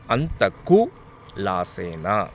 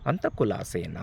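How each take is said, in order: First: A pause falls after 'anthaku', before 'lasena'. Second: A pause falls after 'antha', before 'kulasena'. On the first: It asks whether there was that much loss. The speaker calls it wrong. "అంతకు" అని gap ఇచ్చి లాసేనా" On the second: It asks whether the person is doing well. The speaker calls it right.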